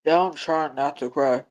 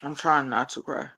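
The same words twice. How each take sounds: First: Slow, holding back tears. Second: Choked up. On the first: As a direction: drag the words out fighting tears. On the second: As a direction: say it under your breath near tears. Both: Real, not acted.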